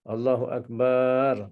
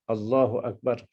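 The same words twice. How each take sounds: First: The final syllable bar is drawn out long. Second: No vowel is drawn out beyond normal length. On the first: "Ataupun kita panjangkan bar" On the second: "katakan lafaz takbiratul ihram"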